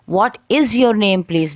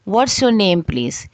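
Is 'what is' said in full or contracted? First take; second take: full; contracted. First: 'What is' is said in full. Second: 'What is' is contracted to 'what's'. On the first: "नहीं है" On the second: "पहला ही जुमला है व्हाट्स your name please"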